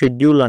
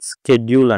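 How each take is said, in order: First: The word begins with a 'sh' sound. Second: The word begins with an 'sk' sound. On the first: This is the British pronunciation. "British ఇంగ్లీష్లో షెడ్యూల్ అంటారు" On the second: This is the American pronunciation. "American ఇంగ్లీష్లో స్కెడ్యూల్ అంటారు"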